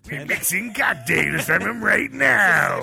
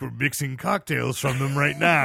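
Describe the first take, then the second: First: It is said in a put-on character voice. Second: It is said in his own natural voice. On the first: The speaker calls it right. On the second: The speaker calls it wrong.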